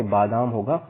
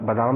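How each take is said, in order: First: बादाम with a long first aa, baadaam; correct form. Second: बादाम with a short first vowel, like badam; wrong form. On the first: Teacher giving the correct बादाम, long first aa. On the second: Teacher showing the wrong form बादाम, short first vowel. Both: Shown as a demonstration. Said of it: "बादाम ना होके बादाम होगा".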